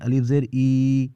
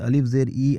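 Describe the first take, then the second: First: The final vowel is drawn out and stretched. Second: The final vowel is kept short and normal. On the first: The speaker calls it wrong. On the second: The speaker calls it right.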